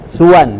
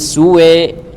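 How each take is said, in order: First: The final vowel is an open 'a'. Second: The final vowel leans toward 'e'. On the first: The word is joined to what follows. "kalau dilanjut tidak ada imalah" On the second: The reader stops on the word. "dibaca imalah kalau waqaf saja"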